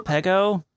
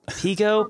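First: "Pego" said as PEG-oh; short-vowel "Pego". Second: "Pego" said as PEE-go; long-vowel "Pego". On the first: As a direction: try "Pego" with a short e, questioning. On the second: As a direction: try "Pego" with a long ee, questioning. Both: Shown as a demonstration. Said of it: "is that Pego? Like, what is that?".

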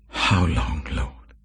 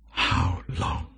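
First: Said in the usual way. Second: Whispered plea. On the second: Acted. Repeated lament, unvoiced.

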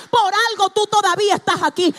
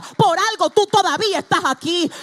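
First: "Por algo" punched hardest, louder still; stress on por algo. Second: "tú" lifted high with a rising end; stress on tú. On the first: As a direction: hammer "Por algo" home. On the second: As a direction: lean on "tú" and let it rise. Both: Shown as a demonstration. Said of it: "repeated for emphasis".

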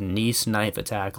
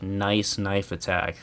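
First: "Nice" said as the French city, "neess", slow. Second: "nice" said as the English word, rhyming with "ice", slow. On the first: Correcting a misread headline, "Nice" as the French city. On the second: Showing the wrong reading of the headline, "nice" as the word. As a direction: read "nice" as the ordinary word, like "nice day". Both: Shown as a demonstration. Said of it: "Nice knife attack like nice knife attack".

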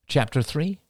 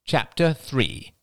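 First: "Chapter three" rising at the end; questioning. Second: "Chapter three" slow with a firm fall; decisive. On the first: Questions it before decisive repeat. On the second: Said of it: "repeated Crystal decisively". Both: A narrator's reading.

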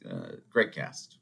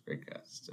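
First: Said in the usual way. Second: Whispered aside, no voice. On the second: Shown as a demonstration. Whispering the cast praise to the viewers. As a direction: breathe it as a secret echo.

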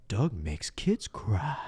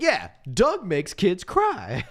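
First: Drawn-out taunt. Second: Higher, slow, insistent mock accusation; emphatic mock taunt. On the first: Retold or imitated. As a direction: stretch CRY out slowly. First taunt, before repeating it louder. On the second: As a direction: repeat it higher, stretching it out. Taunt repeated after a challenge.

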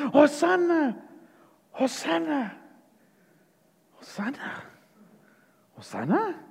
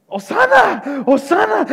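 First: Faltering cheer. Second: High, sudden burst of cheering; crowd shouting. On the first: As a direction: let the acclamation die away into doubt. Crowd's cheer falters as Jesus nears. (aclamación que se apaga, dudosa) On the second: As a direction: cry out in acclamation, pitched up. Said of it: "que estaban gritando". (grito agudo de aclamación) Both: Acted.

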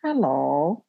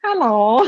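First: Imitating dad's too-loud hello; mock loud hello; loud deaf hello. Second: Put-on kid's hello, higher and louder like dad's; imitating the same hello. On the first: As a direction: boom out hello like a half-deaf dad. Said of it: "And my dad goes". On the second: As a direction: echo the dad's hello back, a bit higher. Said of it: "the same tone as my dad".

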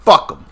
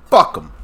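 First: Angry. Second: Louder, higher second fuck him; angry. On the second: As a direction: spit it out harder the second time. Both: Real, not acted. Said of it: "makes me say".

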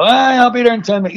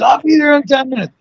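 First: Quick, higher mock promise; breezy brush-off. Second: High-pitched imitation of a late friend; mock repeated promise. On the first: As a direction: toss it off fast, imitating a late friend. Retold friend promising a ride. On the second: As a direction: parody the same empty promise, pitched right up. Same promise two hours later.

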